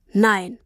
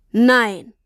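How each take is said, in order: First: Said in the usual way. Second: Louder, sharp NEIN; a father realizing in shock; exclamation. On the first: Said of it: "sagte er". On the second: A narrator's reading. Papa exclaims Nein as he understands.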